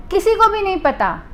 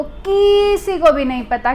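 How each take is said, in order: First: Said in the usual way. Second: किसी drawn out long on its first syllable; stress on किसी. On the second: Real, not acted. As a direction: stretch the first vowel of किसी for emphasis. Emphatic repeat closing the list.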